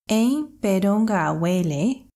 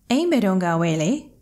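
First: The phrase is said at a slower pace. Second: The phrase is said at a faster pace.

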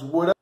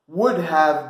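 First: Have is reduced to a short uh sound. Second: The word have is said in full.

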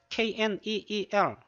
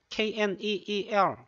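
Both takes have the same delivery.

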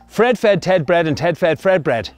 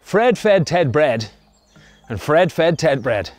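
First: It is said at a fast pace. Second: It is said at a slow pace.

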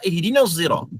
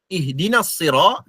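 First: The second word begins with a z-like sound. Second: The second word begins with an s-like sound. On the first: This is one reciter's variant reading. "dia akan membaca ihdinas zira ... sa dengan zai, bi zai" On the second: This is the usual reading. "apabila dia menyebut perkataan ihdinas sira"

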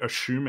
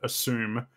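First: It is pronounced the Australian way. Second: It is pronounced the non-Australian way. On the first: This is the speaker's own accent. "I say assume ... that's just like the Australian accent" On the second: This is the way the commenter expects. "instead of assume"

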